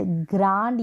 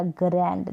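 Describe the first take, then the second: First: First ग्रैंड with an open "aa", as "graand"; ग्रैंड said like "graand", long back vowel; long aa version. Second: ग्रैंड with the front "ae" vowel of "cat"; ग्रैंड said like "graend"; short a version. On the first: Teacher offering one of two accepted ways, ग्रैंड as "graand". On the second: Teacher offering the other accepted way, ग्रैंड with a "cat" vowel. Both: Shown as a demonstration. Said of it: "दोनों तरीके से आप pronounce कर सकते".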